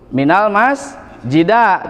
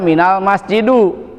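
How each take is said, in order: First: The last word ends with an a vowel. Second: The last word ends with a u vowel. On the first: "tidak boleh" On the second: "tidak boleh dibaca"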